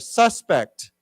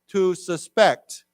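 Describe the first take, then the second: First: The stress is on the first syllable. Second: The stress is on the second syllable.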